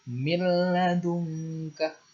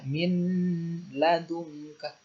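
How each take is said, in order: First: The n merges into the l. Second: The n is pronounced clearly before the l. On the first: The speaker calls it right. "harus langsung masuk ke lam" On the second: The speaker calls it wrong. "tidak boleh dibaca min ladungka"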